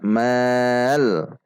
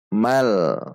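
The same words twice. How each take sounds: First: The vowel is drawn out long. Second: The vowel is kept short. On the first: The speaker calls it wrong. "Tidak dibaca mal" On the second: The speaker calls it right. "namun dibaca mal"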